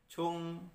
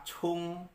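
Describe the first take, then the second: The two takes are said the same way.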